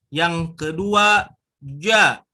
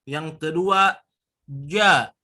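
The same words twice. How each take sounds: No difference in how they are said.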